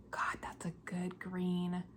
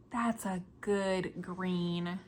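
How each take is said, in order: First: Slow, voiceless whisper of admiration; awed whisper. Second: Said in the usual way. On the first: Real, not acted. Knitter gazing at her green yarn, awed whisper. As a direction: breathe it as if the green stuns you.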